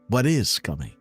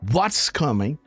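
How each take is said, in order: First: The words 'what is' are said separately in full. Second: The words 'what is' are contracted to one. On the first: "or what is coming. This is Dan Scavino style" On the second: "With a comma S"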